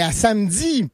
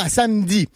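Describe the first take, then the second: First: Samedi said as samedzi; Quebec D. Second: Samedi with a bare D; non-Quebec D. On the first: Showing the local way, samedi as samedzi. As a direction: slip a z into the end of samedi, samedzi. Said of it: "on ajoute un Z". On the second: Showing the wrong way, samedi with plain D. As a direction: say samedi with no z after the D. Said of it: "pas à samedi". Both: Shown as a demonstration.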